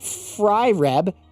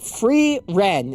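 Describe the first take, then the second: First: The first syllable sounds like 'fry'. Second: The first syllable sounds like 'free'. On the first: The speaker calls it wrong. "it ain't" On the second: The speaker calls it right. "Say it with me. free, free, free"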